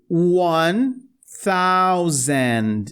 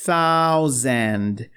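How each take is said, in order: First: One thousand very slow, lisped th; tongue between teeth. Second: Thousand lower, th with tongue out; tongue between teeth. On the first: (thousand com língua presa, bem devagar) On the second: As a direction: isolate the th in Thousand. (Thousand com língua entre os dentes) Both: Shown as a demonstration. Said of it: "De novo a língua presa".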